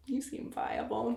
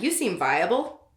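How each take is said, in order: First: Much softer, slow deadpan "You seem viable.". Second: Said in the usual way. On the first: Shown as a demonstration. Rereading her line, softer and deadpan. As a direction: mutter "viable" flat and soft. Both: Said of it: "This is probably how I talked".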